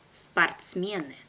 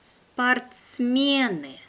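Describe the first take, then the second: First: Brisk, natural native speed; quick native pace. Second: Slow and careful, drawn out for learners; teacher's careful slow reading. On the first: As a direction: say it fast like a native. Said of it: "second time will be quickly, like a native". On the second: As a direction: spell it out slowly for the class. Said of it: "one first time will be slow". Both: Shown as a demonstration.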